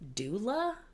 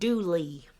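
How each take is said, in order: First: The name ends with an 'uh' vowel. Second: The name ends with a long 'ee' vowel.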